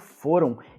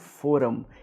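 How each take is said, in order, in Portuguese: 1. A terminação é uma vogal nasal, sem M. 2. O M final é pronunciado como consoante. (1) "eu falo foram, eu faço um som nasal" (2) "eu não falo foram"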